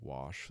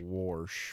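First: The word is said without an R sound. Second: The word is said with an R sound. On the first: The speaker calls it right. "some people will say wash" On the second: The speaker calls it wrong. "Say warsh with an R"

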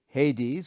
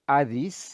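First: It is said with an English pronunciation. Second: It is said with a modern Greek pronunciation.

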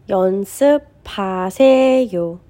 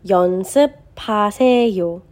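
Both takes have the same delivery.

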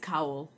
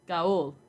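First: The name begins with a K sound. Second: The name begins with a hard G sound. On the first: The speaker calls it right. "it's with a K" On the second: The speaker calls it wrong. "I would be saying Gaul"

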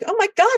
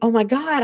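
First: The voice sounds thrilled and excited. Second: The voice sounds worried and anxious. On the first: The new situation is something to celebrate. The speaker calls it right. "we have to be like" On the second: The new situation is something to fear. The speaker calls it wrong. "instead of saying"

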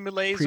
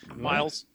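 First: The word is said with a put-on French accent. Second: The word is said with a plain English accent.

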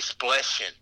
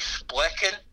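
First: The middle consonant is a soft CH sound. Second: The middle consonant is a hard K sound. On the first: "some people say it with a CH" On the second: "some people say it with a hard, like, a K"

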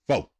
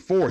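First: The word ends without any r sound. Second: The word ends with a clear r sound. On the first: "New car said F-O, foe. That's right" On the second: "We don't say four here"

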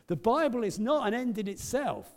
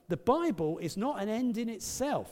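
First: It is said with great passion and force. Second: It is said calmly, without special force.

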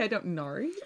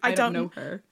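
First: It is said in an exaggerated Australian accent. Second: It is said in a plain, unexaggerated accent.

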